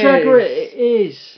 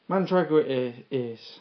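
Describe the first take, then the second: First: It is said loudly, with lots of energy. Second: It is said flatly, with little energy. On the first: The speaker calls it right. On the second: The speaker calls it wrong. "You could sound more excited"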